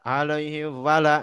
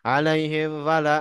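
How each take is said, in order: The two takes are said the same way.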